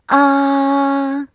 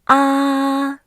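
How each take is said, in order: First: The pitch stays high and level. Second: The same.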